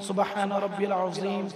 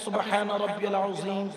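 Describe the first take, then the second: The two takes are said the same way.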